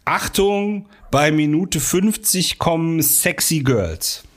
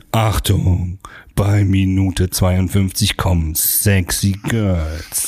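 First: Slow drawn-out teaser line; trailer announcement. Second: Deep, slow movie trailer announcer. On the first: Pretend. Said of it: "Sowas wie". (langsame Ankündigung) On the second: Shown as a demonstration. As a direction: lower it and drag it like a trailer. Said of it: "dann nehmen wir es jetzt auf". (tiefe, langsame Trailerstimme)

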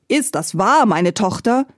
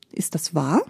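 First: Mildly angry. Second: Said in the usual way. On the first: A narrator's reading. The king confronts his daughter, mildly angry. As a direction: demand it with a touch of anger. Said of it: "rief der König erzürnt".

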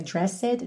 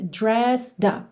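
First: Dressed with an extra E sounded, "dres-sed"; wrong dressed. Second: Dressed as one syllable, final E silent; correct dressed. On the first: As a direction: say dressed wrongly as two syllables. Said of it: "não é dressed". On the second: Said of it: "esse E final aí não é pronunciado". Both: Shown as a demonstration.

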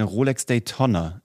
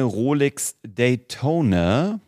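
First: "Daytona" with a short o, like Tonno; clipped open o in "Daytona", rhyming with Tonna; mistaken pronunciation. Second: "Daytona" said with a long o, day-TOH-na; careful "Daytona", stretched o; correct pronunciation. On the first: Retold or imitated. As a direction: say "Daytona" as day-TONN-a. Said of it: "in diesem einen Video habe ich gesagt". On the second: Shown as a demonstration. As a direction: say "Daytona" slowly with a long closed o. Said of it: "wie man es eigentlich ausspricht".

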